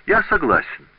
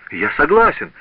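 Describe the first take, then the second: First: Cheerful agreement. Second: Loud, higher cry of surrender; frightened shout. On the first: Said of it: "воскликнул он весело". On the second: Apprentice yielding to the dagger-throwing master, shouting in fear. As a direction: blurt it out in terror. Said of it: "закричал Паголо". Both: A narrator's reading.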